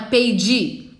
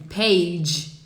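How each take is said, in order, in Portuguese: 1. Há um som de vogal extra, i, depois da consoante final. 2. A palavra termina na consoante, sem vogal. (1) "Não é page" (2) "não tem o i no final"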